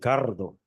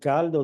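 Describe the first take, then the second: First: The consonant before the d is an R. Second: The consonant before the d is an L. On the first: Some regions of the country say it this way. "dicen cardo" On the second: This is the intended standard word. "Para decir caldo"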